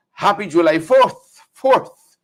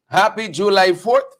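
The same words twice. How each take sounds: First: Slow, drawn-out holiday greeting with a lifted second fourth; Brennan's voice. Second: Said in the usual way. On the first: Retold or imitated. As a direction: lightly mimic Brennan, stretching the words. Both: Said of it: "and in Brennan's voice".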